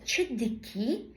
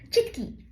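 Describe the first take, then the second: First: It is said slowly with every syllable. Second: It is said fast, dropping a syllable.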